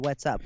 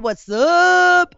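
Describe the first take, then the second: First: It is said lower, in a calm, confrontational tone. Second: It is said in a loose, playful, friendly tone. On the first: The speaker is annoyed and ready to confront. "If I'm pissed off" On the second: The speaker is joking around and having fun. "If I'm having fun"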